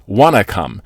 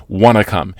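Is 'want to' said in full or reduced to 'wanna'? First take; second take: reduced; reduced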